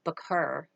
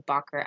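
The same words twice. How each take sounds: First: "Bakr" with a short, unstressed first vowel, like "buh-KER"; first guess at pronunciation. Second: "Bakr" with a fuller first vowel, like "BUCK-er"; alternative pronunciation. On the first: Reporter unsure of a name in a quote, "Bakr" as "buh-KER". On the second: Reporter offering another way to say a name, "Bakr" as "BUCK-er". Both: Shown as a demonstration. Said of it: "not sure how to pronounce it".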